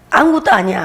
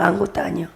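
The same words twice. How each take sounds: First: Said in the usual way. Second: Lightly Jeolla-accented aside; Jeolla dialect. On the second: Shown as a demonstration. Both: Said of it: "전라도 말로".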